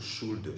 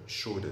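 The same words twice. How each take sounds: First: It is said in a British accent. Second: It is said in an American accent. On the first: "le britannique dit shoulder" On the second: "mais l'américain dit shoulder"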